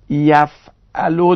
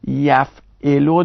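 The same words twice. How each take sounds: First: یفعلو said yaf-A-lu, open a on the middle letter; slow, clear یفعلو with a fatha on the ain; یفعلو as yaf'alu, middle vowel a. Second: یفعلو said yaf-I-lu, short i on the middle letter; slow, clear یفعلو with a kasra on the ain; یفعلو as yaf'ilu, middle vowel i. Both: Shown as a demonstration. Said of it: "یا مفتوح العینه یا مکسور العینه".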